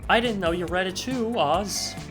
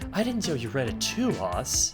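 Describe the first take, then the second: First: The voice is firm, not soft. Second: The voice is soft and gentle.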